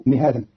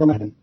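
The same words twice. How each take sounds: First: "مهادا" said mihaadan, i after m, long a after h; kasra and added alif. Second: Said in the usual way. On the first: Shown as a demonstration. Teacher showing Qalun's reading, "مهادا" pronounced mihaadan. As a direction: open "مهادا" with mi, then a long haa. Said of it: "بكسر الميم وفتح الهاء بعدها ألف". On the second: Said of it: "قرأ قالون كلمة مهدا".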